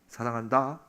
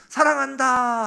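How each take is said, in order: First: It is said softly and warmly, close up. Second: It is said fairly loudly, but quieter than before. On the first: The speaker is right beside the listener as a friend. "찡긋 웃으시는 거예요" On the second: The speaker is calling from a moderate distance. "아까보다는 작지만 그래도 큰 소리로"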